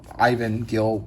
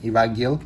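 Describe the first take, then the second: First: The name is pronounced the English way. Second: The name is pronounced the Spanish way. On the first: "might be a better pronunciation for English" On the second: "I am pretty sure he is Spanish, so I, I will be saying it"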